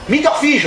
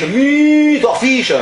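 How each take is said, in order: First: Higher, shouting the words at the foreigner; shouted repeat. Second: Spelling it out slowly. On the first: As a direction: bellow it so the tourist gets it. Repeats louder to uncomprehending tourist. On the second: Owner slowly stretching Meat or fish? for the English tourist. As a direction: drag out Meat or fish? word by word. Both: Acted.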